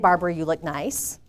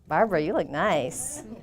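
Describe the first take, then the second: First: It is said as a plain, friendly compliment. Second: It is said in a suggestive, creepy way.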